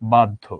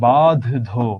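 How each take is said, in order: First: A plain d sound comes before the dh. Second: The aspirated dh sound is pronounced twice. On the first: The speaker calls it right. "আমরা বলি বাধ্য। তাইলে correct কোনটা, this one" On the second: The speaker calls it wrong. "আমরা কি বাধ ধো এইভাবে তো বলি না"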